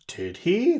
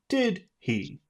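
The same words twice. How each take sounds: First: The tag question sounds unsure and questioning. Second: The tag question sounds confident and assertive. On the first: The speaker does not know what to think. "That means tell me what to think. I don't know what to know" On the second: The speaker shares an opinion and expects agreement. "But do the confident tone"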